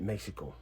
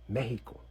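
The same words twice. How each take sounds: First: The middle consonant is not an h sound. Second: The middle consonant is an h sound. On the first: The speaker calls it wrong. "we don't even pronounce it Mexico" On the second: The speaker calls it right. "the H sound represented by the X in Mexico"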